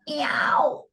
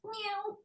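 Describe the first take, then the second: First: The meow is old and creaky. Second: The meow is smooth and plain.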